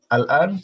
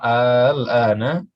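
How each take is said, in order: First: The first vowel is short. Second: The first vowel is drawn out long. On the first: It is a plain statement of now. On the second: It asks whether it is now. "kalau ada yang panjang di sini di awal berarti dia nanya"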